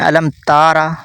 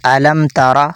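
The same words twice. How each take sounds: First: The vowel after the t is drawn out long. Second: The vowel after the t is kept short. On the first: The speaker calls it wrong. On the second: The speaker calls it right.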